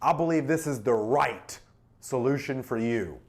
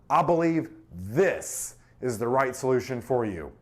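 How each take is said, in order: First: The word "right" carries the stress. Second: The word "this" carries the stress. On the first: The solution is a perfect fit. "Emphasizes perfect fit" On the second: This one is chosen over other options. "This, there's other options, right?"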